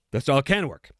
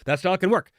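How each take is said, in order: First: "can" stressed as a concession. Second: Said in the usual way. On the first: Real, not acted. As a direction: punch the word "can". Repeats comment, conceding with stress.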